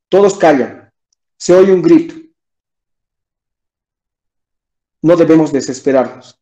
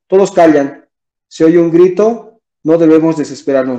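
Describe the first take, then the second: First: Long suspenseful pauses separate the phrases. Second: Short brief pauses separate the phrases. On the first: Something uncertain is about to happen. "diciendo tres puntos, se nota el tema de suspenso" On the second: The events are simply listed without suspense. "una coma ... la pausa es menor"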